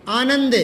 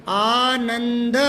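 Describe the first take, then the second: First: Said in the usual way. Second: Teacher slowly drawing out Anand; slow, drawn-out spelling aloud. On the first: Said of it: "पुलकित मतलब आनंदित". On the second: Shown as a demonstration. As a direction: stretch Anand slowly, syllable by syllable. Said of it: "ये आनंद लिख दो".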